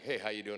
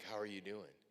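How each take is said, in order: First: It sounds quick, casual and offhand. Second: It sounds slow, warm and sincere.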